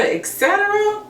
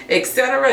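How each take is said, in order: First: Et cetera sung out much higher; high sing-song. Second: Said in the usual way. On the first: Acted. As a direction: stretch et cetera up high, playful.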